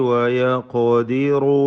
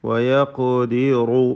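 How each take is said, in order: No difference in how they are said.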